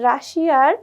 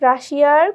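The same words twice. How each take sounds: The two takes are said the same way.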